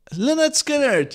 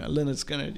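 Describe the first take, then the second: First: Higher and louder, drawn out as the name finally comes; relieved eureka. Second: Said in the usual way. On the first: Real, not acted. Host finally recalls the band for listeners, triumphant. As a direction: blurt the name like you just found it.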